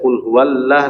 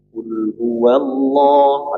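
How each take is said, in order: First: The L in Allah sounds light and thin. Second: The L in Allah sounds heavy and dark. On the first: The speaker calls it wrong. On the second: The speaker calls it right.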